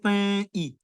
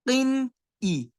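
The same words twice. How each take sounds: First: The n sound is hidden and blurred. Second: The n sound is fully and clearly pronounced. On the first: The speaker calls it wrong. "I'm not saying قِنْ إِ. I'm not trying to hide" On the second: The speaker calls it right. "I'm making the cough clear"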